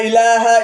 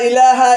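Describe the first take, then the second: Both takes have the same delivery.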